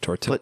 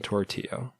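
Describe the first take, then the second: First: The double L is said as an L sound. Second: The double L is said as a Y sound. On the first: "instead of tortilla" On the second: "the L makes the Y sound like in tortilla"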